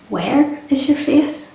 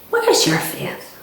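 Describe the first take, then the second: First: The question sounds open and genuinely curious. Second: The question sounds scolding and accusing. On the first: The friends are asked where they have placed their faith. The speaker calls it right. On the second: The friends are blamed for having too little faith. The speaker calls it wrong.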